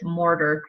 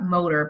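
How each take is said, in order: First: The name is said with an r after the o. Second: The name sounds like the word motor. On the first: The speaker calls it right. "but it's Morter" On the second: The speaker calls it wrong. "I always want to pronounce that motor"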